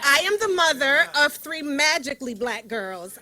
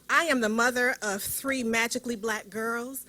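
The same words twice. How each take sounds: First: It is said loudly, projecting like in a cafeteria. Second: It is said at a quieter, normal volume.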